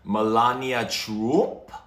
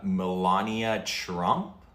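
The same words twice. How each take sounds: First: The name is said with Slovenian-style pronunciation. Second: The name is said with plain English pronunciation. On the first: The speaker calls it right. "It's Slovenian, so maybe it's" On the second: The speaker calls it wrong. "I don't know if I'm saying it right"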